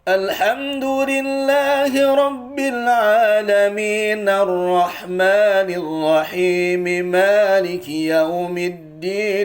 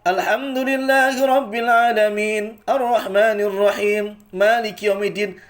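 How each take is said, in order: First: The verses run together without any stops. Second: The verses break at unclear, ambiguous points. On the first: The verses are recited connected throughout. The speaker calls it right. "Itu baru diwasol semuanya" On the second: It is unclear whether the reciter stops or continues. The speaker calls it wrong. "Kalau kayak tadi gak jelas"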